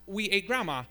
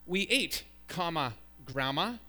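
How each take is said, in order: First: "ate grandma" run together without a break; "We ate grandma" as one unbroken phrase; no comma. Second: "ate", then a clear break before "grandma"; comma read aloud. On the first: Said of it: "with no comma". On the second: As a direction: set "grandma" apart after "comma". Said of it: "the sentence". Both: Shown as a demonstration.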